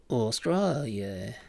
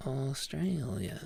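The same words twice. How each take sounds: First: Slow Australian "Australia", stretched out; slow practice take of an Australian accent; attempted Australian accent. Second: Slow, softer Australian "Australia" with an "ay" vowel; softer, drawn-out Australian accent take; attempted Australian accent. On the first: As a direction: try "Australia" in an Aussie accent, drawn out. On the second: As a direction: try Aussie "Austr-ay-lia", falling at the end. Second take of the accent word. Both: Shown as a demonstration.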